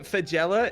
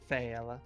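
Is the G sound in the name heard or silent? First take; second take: heard; silent. First: The name is said with a G sound. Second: The name is said without a G sound. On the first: The speaker calls it wrong. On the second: The speaker calls it right. "it's a silent G"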